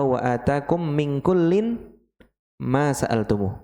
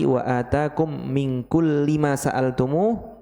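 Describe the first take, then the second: First: The word kullin ends with an n sound. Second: The word kulli ends without an n sound. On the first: God gives everything even without being asked. "yang kedua ... beda tanwin" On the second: God gives whatever you ask for. "Pertama tadi"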